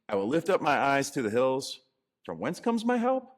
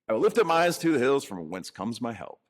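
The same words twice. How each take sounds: First: It is said as a question. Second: It is said as a statement.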